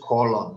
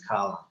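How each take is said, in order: First: The first vowel is a strong, rounded O. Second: The first vowel sounds like an open A. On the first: The speaker calls it wrong. "No es colon tampoco" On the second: The speaker calls it right. "It's calan"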